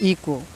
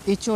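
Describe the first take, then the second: First: The middle consonant is a k sound. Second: The middle consonant is a ch sound. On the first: The speaker calls it right. "इसको आप इको पढ़ पढ़ें" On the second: The speaker calls it wrong. "इचो नहीं पढ़ना है"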